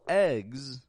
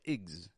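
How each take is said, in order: First: The syllable is full, with a clear vowel. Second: The syllable is quick and quiet, vowel reduced. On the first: The speaker calls it wrong. "we don't pronounce a full eggs, otherwise it would sound stressed" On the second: The speaker calls it right. "a quick and quiet igs"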